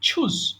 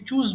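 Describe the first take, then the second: First: The first sound is an aspirated ch. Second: The first sound is an unaspirated ch. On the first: The speaker calls it right. "এটাকে ছ উচ্চারণ করবেন" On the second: The speaker calls it wrong. "এটাকে চুজ বলবেন না"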